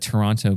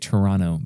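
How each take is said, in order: First: The second T is clearly pronounced. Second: The second T is dropped. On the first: The speaker calls it wrong. "excuse me" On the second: The speaker calls it right. "You're not supposed to s- pronounce the second T"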